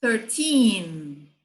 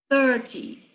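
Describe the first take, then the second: First: "Thirteen" with long, stressed second syllable; stress on TEEN. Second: "thirty" short, strong first syllable, falling -ty; stress on THIR. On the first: Teacher contrasting side by side, stress on TEEN. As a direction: stretch and lean on the TEEN of "Thirteen". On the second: Teacher contrasting side by side, stress on THIR. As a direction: hit the THIR of "thirty", drop the -ty. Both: Shown as a demonstration. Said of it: "lado a lado".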